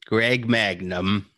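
It is said in an exaggerated character voice. The speaker calls it right. "This is more like the voice you're doing"

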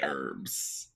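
It is said with an American pronunciation. "but we say herbs"

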